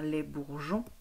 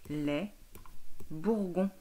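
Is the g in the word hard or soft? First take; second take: soft; hard. First: The g is a soft j sound. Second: The g is a hard g sound. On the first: The speaker calls it right. "pour que ça chante je" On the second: The speaker calls it wrong. "je lis les bourgons. Ça ne va pas non plus"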